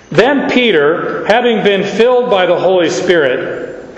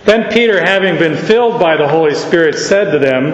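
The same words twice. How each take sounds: First: Too slow. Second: Brisker pace on the second reading; quicker reading. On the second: Preacher rereading the verse briskly to the congregation. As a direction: pick up the pace, no dragging. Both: Shown as a demonstration. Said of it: "oh, you are so slow".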